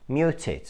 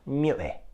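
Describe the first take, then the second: First: The t is pronounced as a full t. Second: The t is replaced by a glottal stop. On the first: "produce T sound" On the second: "use a glottal stop"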